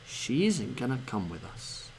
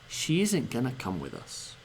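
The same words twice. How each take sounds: Both takes have the same delivery.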